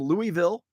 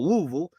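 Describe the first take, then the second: First: Each syllable is said with full vowels. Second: The vowels are squeezed down to very few. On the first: The speaker calls it wrong. "I said that in a in a, a Yankee fashion" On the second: The speaker calls it right. "with the the fewest amount of uh, of, of vowels as possible"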